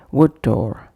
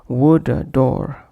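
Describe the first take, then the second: First: WOOD DOOR joined on a single firm d; one shared consonant. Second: WOOD DOOR with an "uh" between: "wooda door"; extra vowel inserted. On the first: Teacher listing correct examples, one shared consonant. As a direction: flow "wood" into "door" without a break. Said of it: "making one impactful sound for both". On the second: Teacher demonstrating a wrong pronunciation, extra vowel inserted. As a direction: add a schwa after "wood" before "door". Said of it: "avoid bringing any other sound between". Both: Shown as a demonstration.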